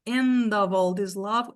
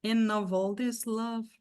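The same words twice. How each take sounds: First: "end of" said with the D run into the O; teacher modelling a linking option; linked "end of" demo. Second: "End of" said slowly with the D dropped and N joined to O; slow demo of the reduced version; alternative linking demo. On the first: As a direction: join the D straight onto "of". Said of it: "dizer se é end of all this love". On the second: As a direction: drop the D, glide N into "of". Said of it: "assim, ó". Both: Shown as a demonstration.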